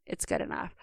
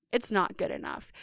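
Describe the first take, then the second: First: Whispered, softer shrug of an excuse; a whispered "good enough" to yourself; dismissive excuse. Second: Put-on a firm "not" against the old excuse; firm rejection. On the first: Retold or imitated. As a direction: breathe it out like giving up. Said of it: "something I caught myself doing is". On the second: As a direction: stress on "not" in "It's not good enough", falling firmly. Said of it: "I'm gonna tell you right now".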